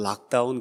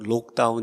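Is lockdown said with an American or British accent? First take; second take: American; British. First: The vowel in lock sounds like an open ah. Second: The vowel in lock sounds like a rounded o. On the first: "우리 미국식 발음으로는" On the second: "아마 영국식 발음으로는"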